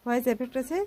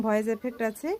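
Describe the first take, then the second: No difference in how they are said.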